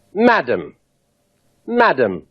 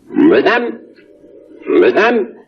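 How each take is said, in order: First: Plain English "madam", falling tune on "madam". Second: French "madame", rising tune, stress on the second syllable; French accent. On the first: Englishman addressing a lady, plain "madam" with a falling tune. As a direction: say "madam" the English way, dropping at the end. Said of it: "An Englishman addressing a lady would say". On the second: Reversed tape of an Englishman addressing a lady, French-accented "madame". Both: Shown as a demonstration.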